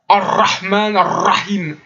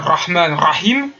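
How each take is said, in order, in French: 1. Le r est forcé et exagéré. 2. Le r sonne comme un kh guttural. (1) "en forçant le ra" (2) "qui vont faire des kha"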